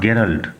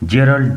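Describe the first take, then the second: First: The name begins with a hard g sound. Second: The name begins with a soft j sound. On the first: The speaker calls it wrong. "Not গেরাল্ড" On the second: The speaker calls it right. "জেরাল্ড ডুরেল"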